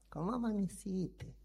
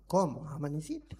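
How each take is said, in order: First: It is said in a sweet, affectionate tone. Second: It is said in a gruff, cold tone.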